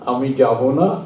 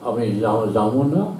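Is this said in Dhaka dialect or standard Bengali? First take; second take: standard; Dhaka dialect. First: It is said in standard colloquial Bengali pronunciation. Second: It is said with a Dhaka regional pronunciation.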